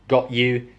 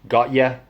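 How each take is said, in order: First: The second word has a full 'you' vowel. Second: The second word is reduced to 'ya'. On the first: "instead of got you" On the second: "got ya. They use all this northern stuff"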